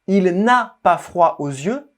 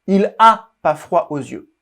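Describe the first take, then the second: First: The n sound before 'a' is heard. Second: The n sound before 'a' is dropped.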